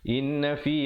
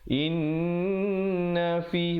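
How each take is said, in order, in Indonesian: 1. Bunyi n pendek, tanpa dengung sengau yang ditahan. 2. Bunyi n ditahan dengan dengung sengau. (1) "Jangan pula kita mula dengan inna fi khalqis sama, tak betul" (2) "Yang betulnya inna fi, baru masuk na tu"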